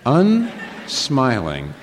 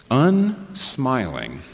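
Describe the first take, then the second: First: Unsmiling drawn out even longer; very slow, weighty Unsmiling; slow emphasis. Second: Drawn-out UNSMILING; slowly savoured Unsmiling; slow emphasis. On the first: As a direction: linger on every syllable of Unsmiling. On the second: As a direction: stretch out Unsmiling, syllable by syllable. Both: Shown as a demonstration.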